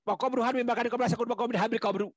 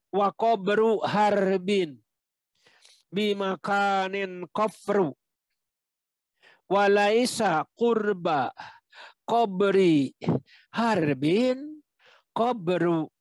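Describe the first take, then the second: First: The line is read quickly without stopping. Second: The line is read slowly and carefully. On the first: "kalau dibaca lancar terus jadi berat" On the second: "kalau pelan kita baca"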